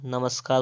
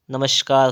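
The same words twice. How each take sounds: First: "नमस्कार" with plain s; correct sibilant. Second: "नमस्कार" with sh before k; wrong sibilant. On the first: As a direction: say "नमस्कार" as namaskaar. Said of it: "होता है". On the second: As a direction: say "नमस्कार" as namashkaar. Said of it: "क्या होता है आपका?". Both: Shown as a demonstration.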